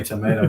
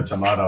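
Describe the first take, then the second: First: "tomato" with a long A, like tuh-MAY-toe; tomato said the American way. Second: "tomato" with a broad A, like tuh-MAH-toe; tomato said the British way. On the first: Mocking the spelling dispute, "tomato" as tuh-MAY-doh. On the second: Mocking the spelling dispute, "tomato" as tuh-MAH-doh. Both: Shown as a demonstration. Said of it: "Is it tomato or tomato?".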